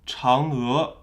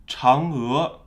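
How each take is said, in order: Both takes have the same delivery.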